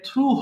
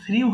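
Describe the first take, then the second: First: A plain oo vowel with no glide. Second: A y-glide comes before the vowel. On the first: The speaker calls it right. "এটা থ্রু হবে" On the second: The speaker calls it wrong. "এটা কিন্তু থ্রিউ হবে না"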